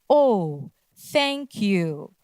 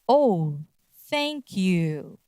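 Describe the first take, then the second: Both takes have the same delivery.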